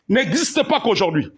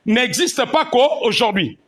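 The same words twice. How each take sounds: First: Said in the usual way. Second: "pas" stressed, "n'existe pas qu'aujourd'hui" said slowly; slow emphatic repeat. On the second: Shown as a demonstration. Pastor repeating to the congregation, slow stress on "pas". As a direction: lean on "pas" and take it slow.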